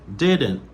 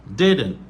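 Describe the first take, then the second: The two takes are said the same way.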